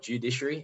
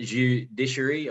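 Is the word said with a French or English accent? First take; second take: English; French. First: It is said with an English accent. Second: It is said with a French accent. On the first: The speaker calls it right. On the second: The speaker calls it wrong.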